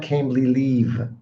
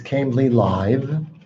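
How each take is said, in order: First: The last word has a long ee vowel. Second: The last word has a short i vowel. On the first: The speaker calls it wrong. "It's not Cambly leave" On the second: The speaker calls it right. "It's Cambly live"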